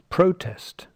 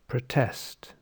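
First: The stress is on the first syllable. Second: The stress is on the second syllable. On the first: It is the noun. "the noun" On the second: It is the verb. "the stress in the second syllable"

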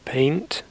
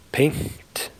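First: The nasal is short and voiced. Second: The nasal is long or voiceless. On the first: The speaker calls it right. "say paint" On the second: The speaker calls it wrong. "Don't say paint"

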